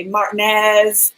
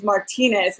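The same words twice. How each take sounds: First: "Martinez" squeezed to mart-NEZ; "Martinez" without its middle "tee", ending on NEZ; mispronounced surname. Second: "Martinez" said as mar-TEE-nez; "Martinez" in three syllables, tee in the middle; usual pronunciation. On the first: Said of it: "sometimes they'll say". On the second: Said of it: "people always say my last name". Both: Shown as a demonstration.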